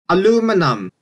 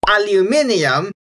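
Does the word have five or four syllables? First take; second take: four; five. First: The word is said with four syllables. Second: The word is said with five syllables. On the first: "it's aluminum in Canadian, American, and Philippine English" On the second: "in most varieties in English"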